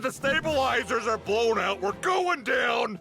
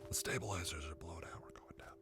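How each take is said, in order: First: It is said at normal, audible loudness. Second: It is said in a near-silent voice.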